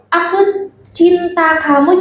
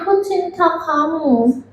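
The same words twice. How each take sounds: First: The vowels are opened and clearly articulated. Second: The vowels are swallowed and the words mumbled. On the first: The speaker calls it right. "vokal yang harus keluar tuh benar-benar kelihatan" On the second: The speaker calls it wrong. "jadinya aku cinta kamu"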